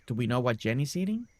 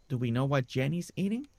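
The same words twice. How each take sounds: The two takes are said the same way.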